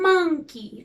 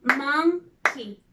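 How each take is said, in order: First: Said in the usual way. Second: "Monkey" cut in two by a pause; split into syllables. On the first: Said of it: "if we split the word". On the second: Shown as a demonstration. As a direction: say mon, then key, for "Monkey". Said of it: "if we split the word, it will be".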